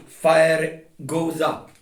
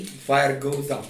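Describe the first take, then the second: First: Slow and louder, every word hammered; insistent lecturing stress; slow emphasis. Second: Said in the usual way. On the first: Real, not acted. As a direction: drive home FIRE goes up, word by word. Insisting on his point.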